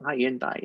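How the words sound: The name is pronounced the British way. "we say it Hyundai in Europe"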